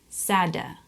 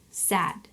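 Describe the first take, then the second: First: An extra vowel is added after the final d. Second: The word ends cleanly on the d sound. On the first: The speaker calls it wrong. "he would pronounce it s-a-d, sada" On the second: The speaker calls it right. "he would say s-a-d, sad"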